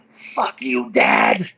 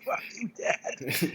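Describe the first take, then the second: First: Low, strained mock scream; retold scream. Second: Slow, voiceless strained imitation; hushed mock scream. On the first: Crying lifter psyching up at the bar, retold low scream. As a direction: imitate a lifter's tearful battle cry, dropped low. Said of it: "he screams out". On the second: Friend recalling an odd way to get psyched, hushed mock scream. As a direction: squeeze out a scream under your breath.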